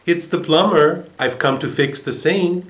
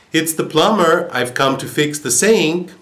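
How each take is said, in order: First: Higher, raised voice of a workman; plumber at the door. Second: A little louder. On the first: Plumber answering the parrot through the door, raised voice. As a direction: announce yourself at the door. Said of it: "To which the man replied". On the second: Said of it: "answered a little more loudly this time". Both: A narrator's reading.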